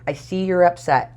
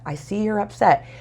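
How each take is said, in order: First: You're leaned on, upset unstressed, falling end; calm reassurance weighted on you're; stress on you're. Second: Upset a bit higher and falling, you're light; calm reassurance weighted on upset; stress on upset. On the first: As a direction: gently stress the word you're. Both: Shown as a demonstration. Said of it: "You want to reassure them".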